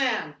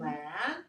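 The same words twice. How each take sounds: First: The pitch falls on the word. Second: The pitch rises on the word. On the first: The speaker calls it wrong. "That's going down" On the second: The speaker calls it right. "That's going up"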